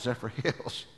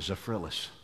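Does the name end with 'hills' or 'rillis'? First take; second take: hills; rillis. First: The name ends with a 'hills' sound. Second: The name ends with a 'rillis' sound. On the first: The speaker calls it right. "that's Zephyr Hills" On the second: The speaker calls it wrong. "I pronounced it Zephyrillis"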